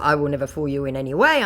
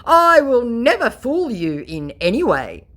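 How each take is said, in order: First: Said in the usual way. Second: Higher, louder pompous scammer promise; mock scammer. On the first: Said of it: "in response to". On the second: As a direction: ham up the conman's oath. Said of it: "my scammer".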